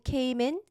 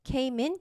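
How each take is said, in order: First: The two words are smoothly linked together. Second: The same.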